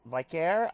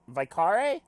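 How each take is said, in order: First: "Vicare" said vy-CARE, questioning rise; trying a pronunciation. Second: "Vicare" said vy-KAH-ray, questioning rise; trying a pronunciation. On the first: Player trying out the character's name, "Vicare" as vy-CARE. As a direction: say "Vicare" in two syllables, rhyming its end with care. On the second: Player trying out the character's name, "Vicare" as vy-KAH-ray. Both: Shown as a demonstration. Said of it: "I don't know how to pronounce".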